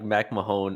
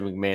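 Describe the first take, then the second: First: The name ends with a long 'Mahone' sound. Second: The name ends with a short 'Mahon' sound. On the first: The speaker calls it wrong. "I said like Mac Mahone initially" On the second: The speaker calls it right. "you said McMahon. And I was like, okay, that's how you say it"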